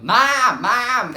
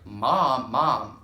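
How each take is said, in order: First: High, very loud shout; yelling for Mom. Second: Raised call for Mom's attention. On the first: Kid yelling at mom who won't reply, shouting. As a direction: yell it as if she can't hear you. Calling louder as mother ignores her. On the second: Kid calling an unresponsive mom, calling out. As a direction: call Mom at normal pitch, a bit louder. First calls to mother, no reply. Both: Retold or imitated.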